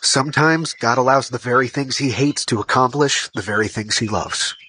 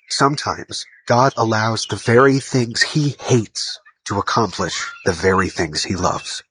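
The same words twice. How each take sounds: First: It is said at normal speed. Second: It is said more slowly.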